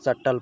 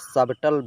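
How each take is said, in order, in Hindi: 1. b मौन है, इसे suttle की तरह बोला जाता है। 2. b की ध्वनि t से पहले बोली जाती है। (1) "सटल पढ़ा जाएगा" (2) "इसे सबटल भी नहीं पढ़ा जाएगा"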